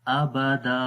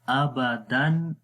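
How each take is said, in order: First: The word ends with a long a vowel. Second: The word ends with an n sound. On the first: The reader stops on this word. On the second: The reading continues without stopping.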